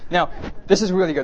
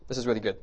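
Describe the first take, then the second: First: "this" punched higher and louder; emphatic repeat. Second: Said in the usual way. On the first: Shown as a demonstration. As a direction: hit "this" hard and lift the voice.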